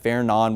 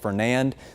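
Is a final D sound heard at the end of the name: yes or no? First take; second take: no; yes. First: The name ends without any D sound. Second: The name ends with an audible D sound. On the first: The speaker calls it right. "The D is silent" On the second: The speaker calls it wrong. "obviously it looks like Fernand"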